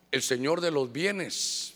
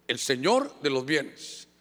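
First: "el señor de los bienes" spoken slowly and low; slow emphasis. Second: "el señor de los bienes" repeated slowly, "señor" stressed; slow down and hit "señor" in "el señor de los bienes"; slow emphasis. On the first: Preacher names the title "el señor de los bienes" slowly and low. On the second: Preacher repeats "el señor de los bienes", stressing "señor". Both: Shown as a demonstration. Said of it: "Fíjese eso".

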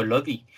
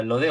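First: "[name]" with an English-style ee ending; English-style pronunciation. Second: Said in the usual way. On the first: Shown as a demonstration. Host asks about the singer's name, "[name]" pronounced English-style. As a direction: say "[name]", final vowel as ee. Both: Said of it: "a lo mejor se pronuncia en inglés".

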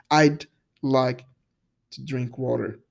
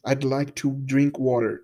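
First: "I'd like to drink water" at natural speed, "I'd" merged and fading at the end; natural contracted I'd. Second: "I'd like to drink water" slowed, each word clear with "I'd" as one syllable; slow clear demo. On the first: Teacher replaying the sentence naturally for student. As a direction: say "I'd like" quickly as native speakers do. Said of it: "Ele tá só um d no meio da frase". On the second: Teacher slowly modelling the example sentence for student. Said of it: "sai só um d". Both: Shown as a demonstration.

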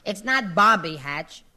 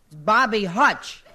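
First: Hatch with a short a, as Florence said it; Bobby Hatch, the wrong version; slow, Hatch said like hatch; corrected pronunciation. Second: Hutch with the u of hut; slow, Bobby Hutch, the right word; corrected pronunciation. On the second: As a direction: Hutch said firmly, like hutch. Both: Shown as a demonstration.

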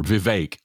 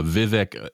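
First: Vivek said as viv-AKE, rhyming with cake; long second vowel. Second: Vivek said as VIV-ick, rhyming with civic; short second vowel. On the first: Co-host corrects himself on the candidate's name, Vivek as viv-AKE. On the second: Co-host first tries the candidate's name, Vivek as VIV-ick. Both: Shown as a demonstration. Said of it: "I keep hearing his name pronounced".

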